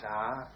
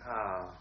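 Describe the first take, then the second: First: The pitch rises. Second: The pitch falls.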